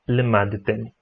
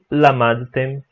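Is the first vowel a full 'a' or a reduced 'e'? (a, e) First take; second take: e; a. First: The first vowel is a reduced 'e'. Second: The first vowel is a full 'a'. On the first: This is the formal pronunciation with shva. "no lugar de" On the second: This is the common everyday pronunciation. "E lamadtem, no lugar de lemadtem"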